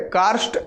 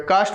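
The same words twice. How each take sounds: First: "कार्स्ट" with the half r clearly sounded, kaarst; "कार्स्ट" pronounced kaa-r-st, not kaast; correct pronunciation. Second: "कास्ट" said fast with the r dropped, kaast; "कास्ट" as kaast, no r sound; quick pronunciation. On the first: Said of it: "इसको उच्चारण ऐसा होगा". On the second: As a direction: rush "कास्ट" so the r goes silent. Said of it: "जब जल्दी बोलिएगा तो इसको कास्ट बोलिएगा". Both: Shown as a demonstration.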